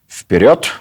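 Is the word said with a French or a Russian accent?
Russian. It is said with plain Russian pronunciation. "Это была команда «Вперед!»"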